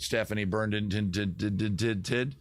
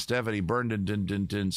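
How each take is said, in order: First: "Burndon" stretched into a long machine-gun run of "did" syllables; exaggerated mocked surname. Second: "Burndon" with its last syllable stuttered out several times; mocked surname. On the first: Host teasing a viewer, "Burndon" absurdly over-stuttered. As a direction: stutter the end of "Burndon" on and on, ending up. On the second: Host reading a viewer's name, "Burndon" stammered out. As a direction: drag out "Burndon" into a string of repeated "din" sounds. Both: Shown as a demonstration. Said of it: "how many damn consonants you need".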